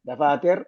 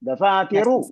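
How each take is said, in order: First: The final vowel is dropped, ending on consonant. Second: The final vowel is pronounced fully and clearly. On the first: The speaker calls it wrong. "ദഫാതിർ എന്ന് പറഞ്ഞ വേറെ നിയമം" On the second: The speaker calls it right. "അവസാനത്തെ അക്ഷരം പറയാന്ന് പറഞ്ഞാൽ"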